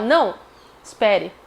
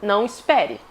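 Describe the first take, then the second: First: There is a pause after the first word. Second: There is no pause between the words. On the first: The listener is refused and then asked to wait. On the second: The listener is told not to wait.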